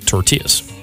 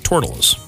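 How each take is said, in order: First: It is said in a Spanish-like accent. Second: It is said in a local Hunterdon County accent.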